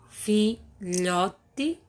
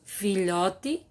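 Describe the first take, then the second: First: "filhote" slowly broken up, fi-lho-te; split into syllables. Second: Said in the usual way. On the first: Shown as a demonstration. Teacher showing pupils how to separate "filhote", syllable by syllable. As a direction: say "filhote" syllable by syllable, pausing between them. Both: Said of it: "Separe as palavras em sílabas".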